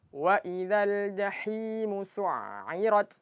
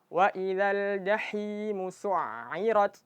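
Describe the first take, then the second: No difference in how they are said.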